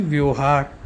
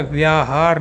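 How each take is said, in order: First: व्यवहार said as "vyohaar"; the wrong व्यवहार, said as "vyohaar"; wrong form said. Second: व्याहार said as "vyaahaar" with a long aa; the correct व्याहार with a long aa; correct form said. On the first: Teacher warns students against saying व्यवहार. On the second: Teacher gives students the correct व्याहार. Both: Shown as a demonstration. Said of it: "ना कि व्यवहार".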